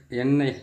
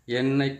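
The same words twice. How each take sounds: Both takes have the same delivery.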